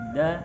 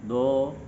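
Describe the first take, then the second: First: The syllable sounds light, with a clear vowel. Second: The syllable sounds heavy, with a darkened vowel. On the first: The speaker calls it right. "tapi suara ke bawah dan langsung keluar" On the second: The speaker calls it wrong. "Tidak dibaca do, ... suaranya di ke atas kan"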